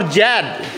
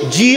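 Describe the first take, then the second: First: The letter name is said as zed. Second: The letter name is said as zee. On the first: This is the Indian way of saying it. "In India we we pronounce it as Jad" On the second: This is the American way of saying it. "In America it's G"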